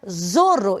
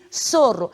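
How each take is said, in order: First: The word begins with a z sound. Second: The word begins with an s sound. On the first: The speaker calls it wrong. "eu não posso pronunciar zorro" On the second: The speaker calls it right. "e sim sorro"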